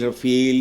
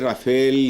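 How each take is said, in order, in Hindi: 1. यह शब्द 'feel' की आवाज़ से खत्म होता है। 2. यह शब्द 'fale' की आवाज़ से खत्म होता है। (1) "मैं फील कहने पे असरा क्यों" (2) "मुख्तलिफ तरीके से इसको प्रोनाउंस किया जा रहा है"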